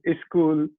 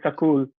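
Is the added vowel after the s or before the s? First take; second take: before s; after s. First: A vowel is inserted before the s sound. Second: A vowel is inserted between the s and k. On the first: The speaker is from the eastern region. "Eastern dialects ... insert the vowel at the start" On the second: The speaker is from the western region. "Western dialects of Hindi, a word like school, they would say sakul"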